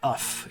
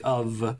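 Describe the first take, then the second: First: The word ends with an F sound. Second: The word ends with a V sound. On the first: The speaker calls it wrong. "You don't say uff" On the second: The speaker calls it right. "you say of"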